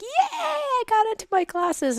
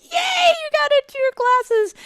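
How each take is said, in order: First: High-pitched retold celebration; son's excited cheer. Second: High, loud echoing cheer; loud, squealed retold celebration; joyously happy. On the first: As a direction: imitate a thrilled son cheering. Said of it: "and then he's like". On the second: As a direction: cheer back with hammed-up joy. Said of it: "joyously happy".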